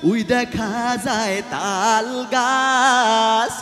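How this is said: It is recited in a pop singer's style. "শিল্পী [name] তার নিজস্ব ভঙ্গিমায় এভাবে সে আবৃত্তি করলো"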